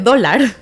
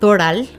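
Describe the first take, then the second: First: The l comes before the r. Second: The r comes before the l. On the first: The speaker calls it right. "en lugar de dólar" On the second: The speaker calls it wrong. "yo decía Doral en lugar de"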